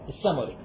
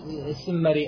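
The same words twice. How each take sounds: First: The name is said as as-Sammuri, with open 'sa'. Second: The name is said with other vowels than as-Sammuri. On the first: The speaker calls it right. "فتح السين بالتجديد وضم الميم" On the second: The speaker calls it wrong. "مو السمري أو كلام ما يقرأ"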